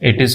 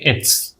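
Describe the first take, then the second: First: The two words are said separately. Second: The two words are joined into one.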